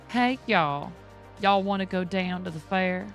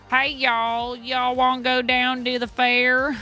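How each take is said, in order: First: It is said with a Southern drawl. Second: It is said with a Southern twang.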